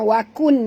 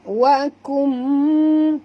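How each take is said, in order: First: The ending is a clear n sound. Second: The ending merges into a nasal m. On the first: The speaker calls it wrong. "bukan wakun" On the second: The speaker calls it right. "tutup mulut"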